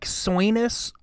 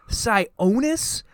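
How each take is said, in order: First: The name has an 'oi' sound in it. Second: The name has an 'own' sound in it. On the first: The speaker calls it right. "if they had gone, like, oi, like, Sionis, I would have understood" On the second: The speaker calls it wrong. "Where the fuck are you getting own from?"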